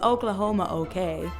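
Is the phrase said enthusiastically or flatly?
flatly. It is said flatly, with little enthusiasm. It is merely acceptable. The speaker calls it wrong. "It's not just Oklahoma okay"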